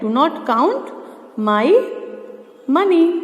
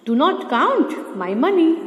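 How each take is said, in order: First: Said in the usual way. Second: Very slow, every word spaced out; slow, deliberate dictation of an English sentence. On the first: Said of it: "first building take word by word". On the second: Shown as a demonstration. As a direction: dictate it word by word so students can write. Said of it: "teacher reads finished sentence slowly".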